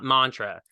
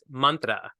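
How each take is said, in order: First: The word has an anglicized pronunciation. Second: The word has an Indian pronunciation. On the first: The speaker calls it wrong. "Not mantra" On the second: The speaker calls it right. "the Indian way to say it properly"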